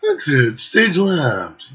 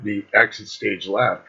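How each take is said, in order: First: "Exit stage left." said slow, each word spaced and stressed; slow emphatic repeat. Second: Said in the usual way. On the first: Shown as a demonstration. Friend repeating which side they sat on, slow and stressed. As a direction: spell "Exit stage left." out deliberately, hitting "stage".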